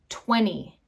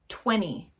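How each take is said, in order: First: The T is dropped, leaving only an N sound. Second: The same.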